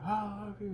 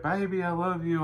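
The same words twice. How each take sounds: First: High, faint, far-off "I love you"; tiny distant voice coming through the pipes; softer, much higher echo of "I love you" from far away; barely audible reply. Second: Raised sweet-talk call down the prison plumbing; calling through the toilet. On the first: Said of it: "I can barely hear it". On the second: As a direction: call it up the pipe to your wife. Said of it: "talking through the toilet tonight". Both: Retold or imitated.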